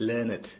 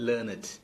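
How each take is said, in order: Both takes have the same delivery.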